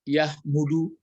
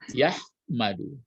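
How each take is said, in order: First: The vowel after the m is u. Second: The vowel after the m is a. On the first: The speaker calls it wrong. "jangan dibuat" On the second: The speaker calls it right. "jadi yahmadu dipakai"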